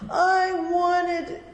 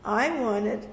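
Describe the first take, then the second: First: It is said in a whiny, complaining voice. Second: It is said in a calm, plain voice. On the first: The speaker calls it wrong. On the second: The speaker calls it right.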